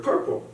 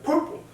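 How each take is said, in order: First: Said in the usual way. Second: "Purple" squeaked out far above usual pitch; odd "purple". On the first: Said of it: "I said to them the word purple". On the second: Retold or imitated. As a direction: blurt "Purple" in a high, silly voice. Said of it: "But I said, like".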